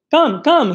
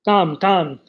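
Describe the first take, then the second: First: High, louder pleading come come; eager child's cry. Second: Said in the usual way. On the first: Acted. Grisha begging the man with shiny buttons, high and eager. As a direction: tug at him, eager and excited. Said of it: "he cried to the man". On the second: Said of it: "he cried".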